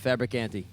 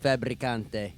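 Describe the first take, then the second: First: The name is said in a plain English accent. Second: The name is said in an Italian accent.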